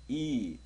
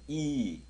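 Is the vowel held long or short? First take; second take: long; long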